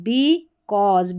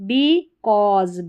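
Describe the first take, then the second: Both takes have the same delivery.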